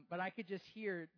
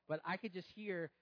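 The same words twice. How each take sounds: The two takes are said the same way.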